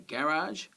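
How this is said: It has the Australian stress placement. "we say"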